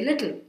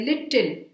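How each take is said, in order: First: It is said with a standard accent. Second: It is said with a South Indian accent. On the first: The speaker calls it right. "We just have to say little" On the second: The speaker calls it wrong. "or they say little"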